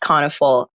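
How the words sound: The name is said with an American pronunciation. "The American version is"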